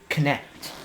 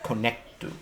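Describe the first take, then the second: First: It ends on a bare consonant. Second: It ends with an added final vowel.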